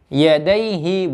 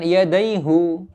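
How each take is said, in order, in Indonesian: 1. Suku kata terakhir diakhiri dengan vokal 'ee'. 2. Suku kata terakhir diakhiri dengan vokal 'oo'. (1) "haknya itu harakatnya kasroh"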